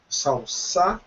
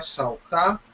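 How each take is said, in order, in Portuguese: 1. A consoante do meio soa como um S. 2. A consoante do meio soa como um K.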